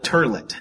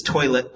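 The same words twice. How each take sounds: First: Toilet said as "turlet"; mispronounced with added R. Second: Toilet with an OY vowel and no R; toilet, first syllable rhyming with boy; standard pronunciation. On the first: Retold or imitated. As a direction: say toilet with an ER in place of OY. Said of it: "they added an R". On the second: Shown as a demonstration. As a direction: say toilet as "TOY-let". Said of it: "that's not right".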